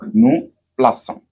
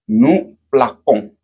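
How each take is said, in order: First: The middle consonant is a soft S sound. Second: The middle consonant is a hard K sound. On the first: The speaker calls it right. "ce qui nous permet d'avoir le son S" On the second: The speaker calls it wrong. "ça nous donne le son pont ... la forme est erronée"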